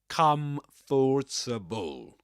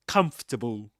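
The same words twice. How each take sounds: First: The word is said with four syllables. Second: The word is said with three syllables. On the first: The speaker calls it wrong. "you see four syllables in writing... you don't say comfortable" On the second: The speaker calls it right. "You say comfortable... three syllables"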